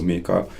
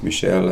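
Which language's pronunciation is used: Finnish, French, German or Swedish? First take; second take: Swedish; French. First: The name is pronounced the Swedish way. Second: The name is pronounced the French way. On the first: "he's actually Swedish speaking, so" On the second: "and in French"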